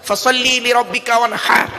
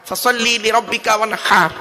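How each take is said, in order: Both takes have the same delivery.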